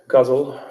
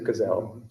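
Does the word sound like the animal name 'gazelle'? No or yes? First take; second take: no; yes. First: The word does not sound like 'gazelle'. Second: The word sounds like 'gazelle'.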